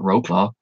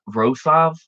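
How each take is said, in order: First: The name is said in an anglicized way. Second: The name is said close to the Polish way. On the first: The speaker calls it wrong. "I kept calling it" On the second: The speaker calls it right. "That's how you pronounce it, I think"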